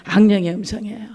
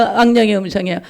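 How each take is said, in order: First: Hushed whispered answer. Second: Said in the usual way. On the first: Shown as a demonstration. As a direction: drop to a secret whisper.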